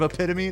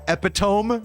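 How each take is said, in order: First: The word is pronounced in its usual standard way. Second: The word is pronounced just as it is spelled. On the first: "instead of" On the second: "I love pronouncing them the way they're phonetically spelled"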